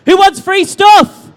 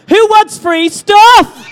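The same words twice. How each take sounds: First: Loud, higher shout to the crowd, stretched out slowly; crowd call-out. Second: Loud, high, very drawn-out shout; bigger crowd call-out. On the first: Host asks crowd who wants free stuff, calling out loudly. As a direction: hype them up with a raised, drawn-out question. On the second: Host retries free stuff question on crowd, shouting it big. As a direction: bellow it slowly to rouse the whole crowd, stretching STUFF. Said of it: "Let's try that again". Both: Real, not acted.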